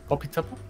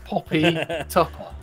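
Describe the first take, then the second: First: The name is said quickly, run together. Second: The name is said at a normal pace.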